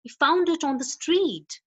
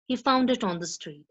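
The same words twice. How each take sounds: First: "He found it on the street" with the pitch rising at the end; rising echo question. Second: "He found it on the street" with the pitch falling at the end; falling statement. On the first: Teacher demos an echo question rising at the end. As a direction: lift "street" up as a surprised echo. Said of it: "is rising to higher pitch at the end". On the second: Teacher demos a statement falling at the end. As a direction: let "street" drop as a plain statement. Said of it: "is falling to the lower pitch at the end". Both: Shown as a demonstration.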